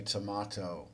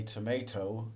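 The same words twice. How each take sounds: First: Tomato with a broad ah, tuh-MAH-toe; British tomato. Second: Tomato with a long ay, tuh-MAY-toe; American tomato. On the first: Teacher contrasting accents for students, tomato said tuh-MAH-toe. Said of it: "British will say tomato". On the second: Teacher contrasting accents for students, tomato said tuh-MAY-toe. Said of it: "Americans will say tomato". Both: Shown as a demonstration.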